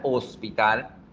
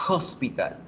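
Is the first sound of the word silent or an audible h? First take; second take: silent; audible h. First: The word begins with no h sound. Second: The word begins with an audible breathy h. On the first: "Nosotros no pronunciamos la letra H por ningún lado" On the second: "el sonido de la H es el sonido de la J"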